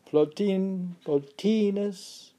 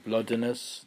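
First: "Plotinus" as plo-TEE-nus, slow and high; stress on the T. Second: "Plotinus" stressed up front, PLOT-uh-nus; misplaced accent. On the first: Shown as a demonstration. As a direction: lift and stretch the TEE in "Plotinus". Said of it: "How do I know it's on the T". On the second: Real, not acted. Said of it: "You always put it on the wrong side".

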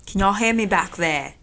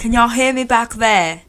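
First: Mock British accent. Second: A louder, slower British-tinged call to the back of the room; mock British accent as he checks that the people at the back can hear him. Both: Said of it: "Can you please stop talking in a British accent".

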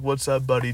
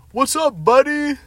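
First: Said in the usual way. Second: High, loud mock-friendly yell across the pool; loud fake-friendly holler; yelled greeting. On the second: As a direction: shout it like a drunk buddy. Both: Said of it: "And, like, yells".

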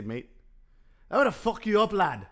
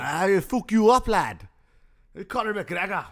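First: Higher, hammed-up Irish lilt; Irish accent. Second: Loud, high mock Irish trash talk; Irish accent. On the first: Host redoing his Irish impression for cohost, higher Irish brogue. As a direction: play a cocky Irish brawler. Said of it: "The Irish people say". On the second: Host continues McGregor bit after cohost approves, loud Irish. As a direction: taunt like a cocky Irish fighter. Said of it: "That's better".

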